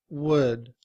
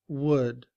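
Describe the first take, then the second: Both takes have the same delivery.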